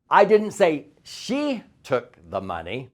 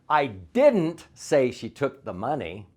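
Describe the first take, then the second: First: The word say is stressed. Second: The word didn't is stressed.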